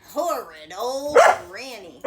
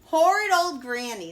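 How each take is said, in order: First: Loud grumbling curse; angry cry. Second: Loud growled curse; growling. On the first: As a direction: spit it out sore. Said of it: "the wolf cried". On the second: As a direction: growl it, nursing his nose. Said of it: "the wolf growled". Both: A narrator's reading.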